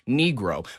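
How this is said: It is said with an old-fashioned English pronunciation.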